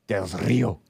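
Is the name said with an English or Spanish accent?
Spanish. It is said with a Mexican Spanish pronunciation.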